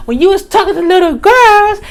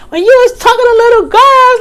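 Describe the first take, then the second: First: Raised accusation. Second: Much higher, louder and fast yell; retold yell. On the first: Retold or imitated. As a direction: say it again, pushing harder. Repeating the accusation, louder. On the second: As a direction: scream it at him, fully heated. Accusation escalates to a yell.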